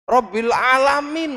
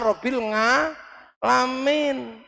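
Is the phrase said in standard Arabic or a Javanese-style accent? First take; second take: standard Arabic; Javanese-style. First: It is said the standard way, with the ain sound. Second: It is said Javanese-style, with an ng sound.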